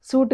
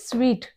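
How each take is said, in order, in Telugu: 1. ఈ పదం 'suit' లాగా వినిపిస్తుంది. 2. ఈ పదం 'sweet' లాగా వినిపిస్తుంది. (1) "సూట్ కాదు" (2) "ఇది స్వీట్"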